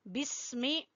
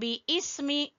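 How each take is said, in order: First: The b joins the s as one syllable. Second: A separate vowel comes between b and s. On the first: The speaker calls it right. "ये बिस्मी बाजेर सीन बिस पढ़ेंगे।" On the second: The speaker calls it wrong. "बी इसमी गलत है।"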